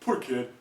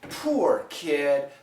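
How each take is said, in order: First: The vowel in 'poor' is short and schwa-like. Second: The vowel in 'poor' is a long oo glide. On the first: "Really short, very schwa sounded" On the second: "the typical American pronunciation will be this ooh"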